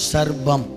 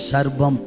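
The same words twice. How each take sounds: Both takes have the same delivery.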